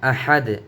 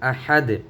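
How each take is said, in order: First: The word ends abruptly on a bare 'd'. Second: The word ends abruptly on a bare 'd'.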